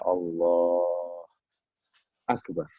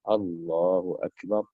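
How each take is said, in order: First: There is a pause between the two words. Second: The two words are joined without a pause. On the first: The speaker calls it wrong. "Jadi nggak boleh dijeda. Ya. Misalnya Allah Akbar. Nggak boleh" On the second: The speaker calls it right. "dia harus digabungkan"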